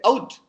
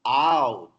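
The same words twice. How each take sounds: First: "out" said higher with a short flat vowel; the local clipped "out"; Telugu-style out. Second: "out" with a full au glide, lower; correct out. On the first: Teacher mimics the students' "out". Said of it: "We say out". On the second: Teacher corrects the class with a gliding "out". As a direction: open "out" from a into u. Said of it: "No, out". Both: Shown as a demonstration.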